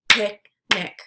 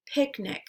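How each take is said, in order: First: "Picnic" as two separate beats, Pic – nic; syllables split apart. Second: Said in the usual way. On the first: Shown as a demonstration. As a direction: say "Picnic" syllable by syllable, pausing between. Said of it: "break it into the syllables". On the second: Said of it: "repeat the word".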